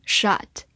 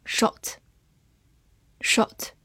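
First: "shot" with an American open "ah" vowel; American pronunciation. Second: Said in the usual way. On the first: Shown as a demonstration. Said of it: "美式发音". (用美式发音读“shot”，元音读成张开的“啊”) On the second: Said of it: "美式发音shot".

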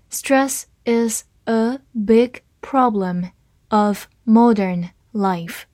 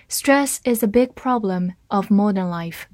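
First: Slow, word by word; slow reading. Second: Said in the usual way. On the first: Shown as a demonstration. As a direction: read it slowly and clearly for learners. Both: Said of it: "好，慢读一遍。".

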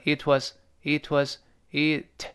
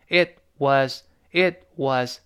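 First: "it was" flowing together, t barely touched; light linking. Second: "it was" with a hard released t; "it was" as separate words, t fully exploded; wrong linking. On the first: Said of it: "而读成". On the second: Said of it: "不是读成". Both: Shown as a demonstration.

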